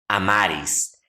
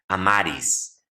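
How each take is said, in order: Both takes have the same delivery.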